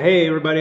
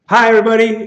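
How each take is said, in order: First: It is said with calmer, lower energy. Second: It is said with very high energy.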